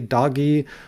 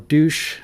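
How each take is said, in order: First: The word sounds like 'dohj' with a long o. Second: The word sounds like 'doosh' with a long oo. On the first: "I refuse to pronounce it Doge" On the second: "I'll pronounce it douche"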